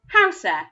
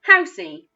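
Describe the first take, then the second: First: The word ends with an added 'eh' sound. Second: The word ends with an added 'ee' sound. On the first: "what other sounds that eh, the letter E, makes" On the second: "it sometimes also makes the E sound"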